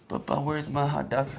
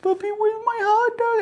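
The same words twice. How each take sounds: First: Lightly voiced drowsy little boy, pitched higher; a hint of a sleepy kid's plea; sleepy child. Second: Very high, loud wail; hammed-up tearful plea in a squeaky high pitch; mock crying child. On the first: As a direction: imitate a child just waking, asking for food. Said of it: "He's, like, sleeping like this". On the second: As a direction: imitate a kid waking up bawling for food. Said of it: "And then he wakes up again".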